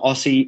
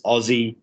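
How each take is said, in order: First: The middle consonant is a hissing s sound. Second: The middle consonant is a buzzing z sound. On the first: The speaker calls it wrong. "It's not Aussie" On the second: The speaker calls it right. "The S's are Z's"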